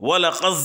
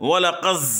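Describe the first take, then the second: Both takes have the same delivery.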